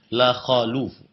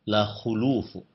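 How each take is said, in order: First: The vowel after kh is a. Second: The vowel after kh is u. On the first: The speaker calls it wrong. "Diberikan fathah pada khafnya" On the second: The speaker calls it right. "kha yang diberikan dhammah"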